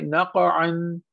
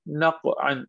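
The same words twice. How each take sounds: First: Short echo after q in नक़अन; qalqalah bounce. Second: नक़अन with q stopped before "an"; no bounce on the q of नक़अन; without qalqalah. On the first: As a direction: bounce the heavy q of नक़अन, like "naqa-an". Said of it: "इसे पढ़ेंगे". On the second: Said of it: "इसको हम ऐसे नहीं पढ़ेंगे". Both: Shown as a demonstration.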